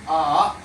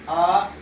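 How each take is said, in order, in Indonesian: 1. Nada turun dulu lalu naik. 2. Nada tetap rata dan datar. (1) "dari atas ke bawah terus lagi" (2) "Yang dibaca datar seperti A"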